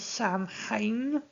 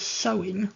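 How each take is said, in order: First: It is said as 'sam-hane', with an m sound. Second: It is said as 'sow-in', with no m sound. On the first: "I've heard it spoken as Samhain" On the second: "it's meant to be pronounced as sewing"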